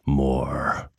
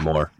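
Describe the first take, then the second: First: It is said in a spooky horror-story way. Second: It is said in a flat, dull way.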